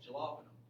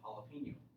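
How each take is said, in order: First: The word starts with an English 'j' sound. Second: The word starts with an 'h' sound. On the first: "spelled with a J" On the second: "but it's pronounced"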